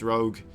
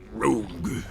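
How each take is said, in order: First: It is said in a normal speaking voice. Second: It is said in an epic, near-grunting voice.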